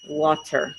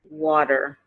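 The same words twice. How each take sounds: First: The middle consonant is a clear T. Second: The middle consonant is a soft D-like flap. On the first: "the British, they usually pronounce it as" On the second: "in America, we say"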